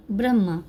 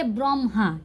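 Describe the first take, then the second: First: "ब्रह्मा" as bram-maa, no audible h; Hindi reading. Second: "ब्रह्मा" as brom-haa, rounded o; m before h. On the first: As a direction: say "ब्रह्मा" with short a and plain m. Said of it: "जानते हैं कि ब्रह्मा होते हैं". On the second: Teacher shows learners Bengali reading, "ब्रह्मा" said brom-haa. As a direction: sound m first, then h in "ब्रह्मा". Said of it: "यहाँ पर बोलेंगे ब्रह्मा". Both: Shown as a demonstration.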